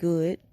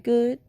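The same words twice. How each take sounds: First: The word is said in a deeper tone. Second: The word is said in a normal tone. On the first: The speaker really does not want to talk. "a little more deep tone like good" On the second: A short, cordial answer that ends the conversation. "So you just say good"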